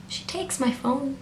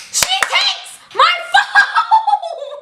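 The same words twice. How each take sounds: First: Hushed, slow, halting disbelief; stunned disbelief. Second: High drawn-out shriek of disbelief; outraged scream. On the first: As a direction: say it softly and slowly, as if stunned. Stunned repeat before screaming it. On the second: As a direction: scream it slowly, laughing, way up high. Replays outrage at phone taken. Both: Retold or imitated.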